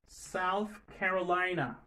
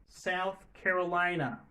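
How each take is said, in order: The two takes are said the same way.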